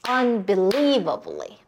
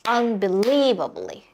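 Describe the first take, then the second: The two takes are said the same way.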